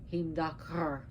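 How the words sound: The name is said with an Icelandic pronunciation. "as the Icelandic would then would pronounce it"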